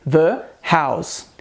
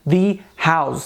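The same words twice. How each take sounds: First: 'The' is said with a short 'uh' vowel. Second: 'The' is said with a long 'ee' vowel. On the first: The speaker calls it right. "devemos dizer the house" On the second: The speaker calls it wrong. "não devemos optar por dizer the house"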